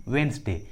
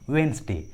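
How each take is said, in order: Both takes have the same delivery.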